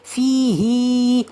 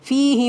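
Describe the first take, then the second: First: The vowel after the h is drawn out long. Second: The vowel after the h is kept short. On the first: The speaker calls it wrong. "we are not saying fihi like that" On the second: The speaker calls it right. "as if it is only ha with the kasra without adding mad"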